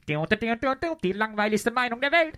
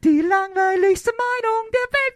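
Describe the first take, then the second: First: It is said with a hateful tone. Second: It is said with a cheerful tone.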